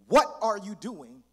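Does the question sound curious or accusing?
accusing. It sounds like an accusing, challenging question.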